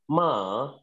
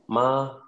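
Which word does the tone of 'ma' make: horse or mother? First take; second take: horse; mother. First: It is said with the tone meaning horse. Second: It is said with the tone meaning mother. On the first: The word means horse. The speaker calls it wrong. "if you say, Ma, then that's a horse" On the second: The word means mother. The speaker calls it right. "you really want to say, Ma, Ma, Ma. You want to say it like that?"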